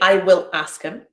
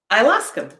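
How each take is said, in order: First: The words 'I will' are said in full. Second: The words 'I will' are contracted to 'I'll'. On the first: The speaker calls it wrong. "I don't say" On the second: The speaker calls it right. "I say"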